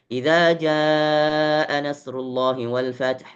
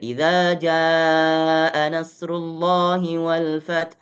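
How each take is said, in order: First: The phrase is recited quickly with shorter vowels. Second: The phrase is recited at a moderate pace. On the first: "Naik satu tempo lagi lebih cepat, hadar" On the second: "Kalau kita naik tadwir"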